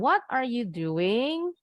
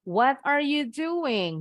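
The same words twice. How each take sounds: First: The pitch rises at the end. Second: The pitch falls at the end. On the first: The speaker calls it wrong. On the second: The speaker calls it right. "Harus intonasinya turun"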